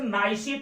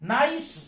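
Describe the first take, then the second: First: The word ends with an added ee vowel. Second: The word ends on an s sound, no vowel. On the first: The speaker calls it wrong. "नाइसी तो हमने पढ़ा नहीं" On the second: The speaker calls it right. "सी का pronunciation हम नहीं बोल रहे हैं"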